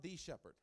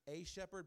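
First: "the" said as THEE, set against "a"; stress on THE. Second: "a" said as a full, long AY; stress on A. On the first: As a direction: lean on "the" before shepherd, pronounced THEE. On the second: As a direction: lean on "a" before shepherd, pronounced AY. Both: Shown as a demonstration. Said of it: "but I'm not the shepherd".

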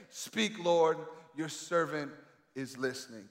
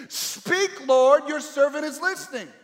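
First: Low, soft, slow, fading plea; softly, as a private prayer; hushed prayer. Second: High, loud ringing plea; loud pleading prayer; fervent cry. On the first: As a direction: drop to an intimate murmur. Same prayer, said softly now. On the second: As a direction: proclaim it to the whole room. Preacher voices the prayer aloud. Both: Shown as a demonstration.

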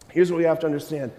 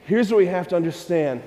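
The two takes are said the same way.

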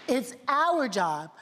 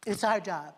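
First: Slow, weighty "It's our job." with "our" stressed. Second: Said in the usual way. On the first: Shown as a demonstration. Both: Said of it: "can I say it again?".

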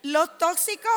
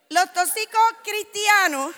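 First: Said in the usual way. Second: "los tóxicos cristianos" slower, higher and louder, each word pressed; stress on los. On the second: Shown as a demonstration. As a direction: preach "los tóxicos cristianos" slowly with weight. ("los tóxicos cristianos" más lento y fuerte)

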